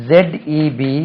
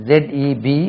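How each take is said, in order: Both takes have the same delivery.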